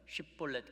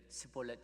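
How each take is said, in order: First: The word begins with a 'sh' sound. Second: The word begins with an 's' sound. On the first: The speaker is not from the tribe being hunted. The speaker calls it right. "에스에이치 발음은 쉿볼렛 그래야 되는데" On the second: The speaker belongs to the tribe being hunted. The speaker calls it wrong. "스볼렛 이렇게 S 발음으로"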